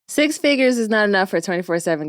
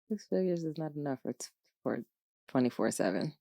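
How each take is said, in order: First: The sentence is spoken loudly. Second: The sentence is spoken quietly. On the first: "Let me say that louder" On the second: "sometimes I'll be talking too low"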